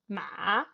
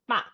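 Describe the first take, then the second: First: The pitch dips low, then rises again. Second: The pitch falls sharply from high to low. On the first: "goes down and then goes up" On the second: "You can go down as well"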